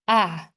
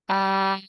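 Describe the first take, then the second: First: The pitch falls sharply from high to low. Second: The pitch stays high and level. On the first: "And how about the last one?" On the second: "How to say the first tone?"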